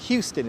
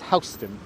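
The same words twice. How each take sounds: First: The first syllable sounds like 'hew'. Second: The first syllable sounds like 'how'. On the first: The speaker calls it wrong. "it's not Houston" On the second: The speaker calls it right. "it's Houston, because that wasn't how you pronounce the family's name"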